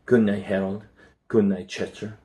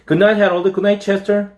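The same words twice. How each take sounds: First: Softer, calm goodnight; calmly. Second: Put-on high, bright child's goodnight; cheerful goodnight. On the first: A mother says goodnight to the pets, soft and calm. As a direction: settle the pets down gently. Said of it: "and then more calmly". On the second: A boy calls goodnight to the pets, high and cheerful. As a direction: call it out happily. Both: A narrator's reading.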